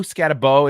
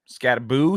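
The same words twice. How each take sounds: First: "Scatabo" with a long oh ending, louder. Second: "Scataboo" with a long oo ending, questioning; ending in "boo". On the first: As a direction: try "Scatabo" with last syllable like "bow" in rainbow. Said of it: "It should be Bo". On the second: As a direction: try "Scataboo" rising, last syllable like "boo". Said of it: "is it Boo". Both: Shown as a demonstration.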